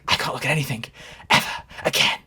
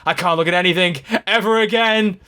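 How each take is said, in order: First: The line is softly whispered. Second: The line is shouted loudly. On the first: "he's really like whispering" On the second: "he literally screams"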